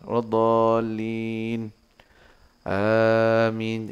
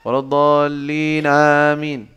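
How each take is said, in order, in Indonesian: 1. Ada jeda singkat sebelum kata terakhir. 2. Kata-katanya terus tanpa jeda. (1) "Berhenti dulu sebentar. ... Jadi ada jeda sedikit" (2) "Boleh, kalau sih boleh, boleh aja"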